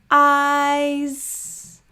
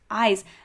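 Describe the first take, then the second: First: The word is said slowly, sounds drawn apart. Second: The word is said at normal speed.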